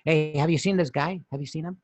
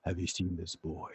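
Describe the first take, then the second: First: Light, casual asking after someone; ordinary guy voice. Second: Very low, soft menacing voice; hushed, deep villain impression; dramatic robot villain. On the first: Acted. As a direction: ask it like a harmless regular guy. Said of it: "And you're like". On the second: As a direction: drop it low and quiet like a movie cyborg. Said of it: "you're expecting him to sound like".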